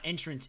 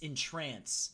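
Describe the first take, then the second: First: The stress is on the first syllable. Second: The stress is on the second syllable. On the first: A way in. The speaker calls it wrong. "It's not entrance" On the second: To captivate. The speaker calls it right. "it's entrance. There we go. To captivate"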